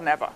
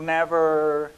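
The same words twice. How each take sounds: First: It ends in an open 'a' vowel, without R. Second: It ends with a strong, heavy R sound. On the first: "o britânico vai falar never, normalmente terminando normalmente em A" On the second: "americano ele vai falar assim"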